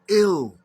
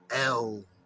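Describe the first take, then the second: First: The vowel sounds like ih, as in ill. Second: The vowel sounds like eh, as in Spanish. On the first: The speaker calls it right. "The E is pronounced like a I in Arabic" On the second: The speaker calls it wrong. "You pronounce the, the E L as if it's Spanish"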